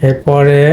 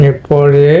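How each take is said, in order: Both takes have the same delivery.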